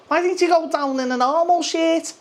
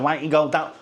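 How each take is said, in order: First: Very high, whiny mock voice; mocking critics. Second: Said in the usual way. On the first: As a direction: parrot the complainers in a silly high voice. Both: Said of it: "'cause people said".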